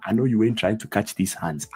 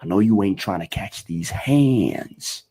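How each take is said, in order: First: "hands" as "hahndz", "catch" as "cahtch"; open-vowel pronunciation. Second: "hands" stretched with an "ay"-like vowel; slower line, drawing "hands" out as "hay-ndz"; American pronunciation. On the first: Teacher showing the version to avoid, "hands" as "hahndz". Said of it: "Instead of me saying". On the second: Teacher showing the preferred version, long raised vowel in "hands". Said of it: "I am saying". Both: Shown as a demonstration.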